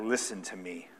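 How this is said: It is said boldly and forcefully.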